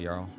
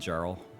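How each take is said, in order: First: The name is said with its native pronunciation. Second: The name is said with an anglicized pronunciation. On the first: "that's like the proper pronunciation" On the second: "If you want to be called Jarl"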